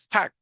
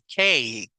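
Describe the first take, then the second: First: The a is said as a short vowel. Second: The a is said as a long vowel. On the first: The speaker calls it wrong. "No es cac" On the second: The speaker calls it right. "Porque A es el sonido de la A larga"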